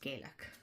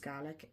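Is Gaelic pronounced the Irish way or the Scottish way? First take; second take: Irish; Scottish. First: The word is pronounced the Irish way. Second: The word is pronounced the Scottish way. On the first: It names the Irish language. "ours is Gaelic" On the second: It names the Scottish language. "one is Scottish, which is Gaelic"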